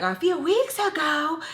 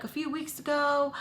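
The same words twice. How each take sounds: First: High, slow, disbelieving question; stretched-out high-pitched shock; incredulous. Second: Higher-pitched quote of the neighbor; said higher, without force; casual retold remark. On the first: Retold or imitated. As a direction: echo it back in outraged disbelief. Retold shocked reaction to the news. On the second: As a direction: lightly mimic her offhand mention. Quoting overheard woman's remark.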